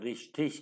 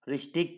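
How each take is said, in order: First: The word ends with an sh sound. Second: The word ends with a k sound. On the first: "रिश्टिक कह लें या रिश्टिश कह लें, दोनों ठीक है" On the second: "रिश्टिक कह लें या रिश्टिश कह लें, दोनों ठीक है"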